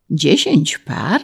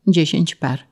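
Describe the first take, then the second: First: Drawn-out questioning repeat; incredulous echo. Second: Said in the usual way. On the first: A narrator's reading. Official amazed at the peasant's horse count, incredulous. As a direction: repeat it slowly in disbelief.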